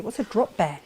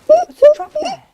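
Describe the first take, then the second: First: Said in the usual way. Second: Very high, loud squealing question. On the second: Pretend. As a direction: squeal it with mock alarm. Repeats the question, then squeals it.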